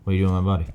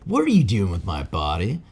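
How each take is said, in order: First: It is said in a dumbfounded, Saitama-like voice. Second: It is said in an ordinary, not dumbfounded voice.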